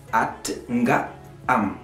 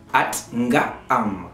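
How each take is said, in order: Both takes have the same delivery.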